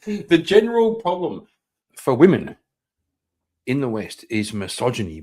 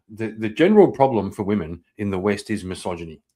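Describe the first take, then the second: First: Mocking repeat. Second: Said in the usual way. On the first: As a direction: parrot it back, ridiculing. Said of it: "laughs, then mocks the line". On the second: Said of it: "repeats it mockingly".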